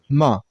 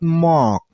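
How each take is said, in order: First: The vowel is said with unrounded lips. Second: The vowel is said with rounded lips. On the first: The speaker calls it right. "your mouth shouldn't make a round shape" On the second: The speaker calls it wrong. "It's not mock"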